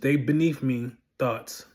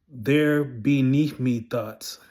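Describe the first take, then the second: First: It is said at a normal pace. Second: It is said a little more slowly.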